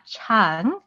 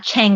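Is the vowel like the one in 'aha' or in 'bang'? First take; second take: aha; bang. First: The vowel is open, as in 'aha'. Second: The vowel is flat, as in 'bang'. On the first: The speaker calls it right. "chang, like aha" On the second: The speaker calls it wrong. "not chang like bang"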